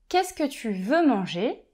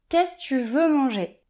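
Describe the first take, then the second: First: The word 'que' is said after 'qu'est-ce'. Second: The word 'que' is left out after 'qu'est-ce'. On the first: "au lieu de dire" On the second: "je vais dire"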